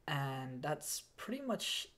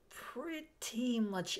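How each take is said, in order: First: Said in the usual way. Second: Higher, slow stretched pretty much it; drawn-out repeat. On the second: Real, not acted. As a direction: stretch the words out slowly, a little higher.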